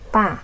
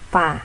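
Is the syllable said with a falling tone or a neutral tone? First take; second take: falling; neutral. First: The syllable falls sharply from high to low. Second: The syllable is short, light and unstressed. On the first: "nada keempat" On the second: "itu nada netral atau nada kelima"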